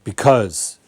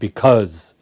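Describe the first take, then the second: Both takes have the same delivery.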